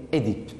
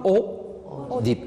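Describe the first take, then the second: First: Édipe said as "é-dipe", with a clear closed E sound at the start; correct pronunciation. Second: Oedipe said as "o-dipe", with a plain O sound at the start, slowly; wrong pronunciation shown. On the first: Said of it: "On dit Édipe". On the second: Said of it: "mais on ne dit pas Oedipe". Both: Shown as a demonstration.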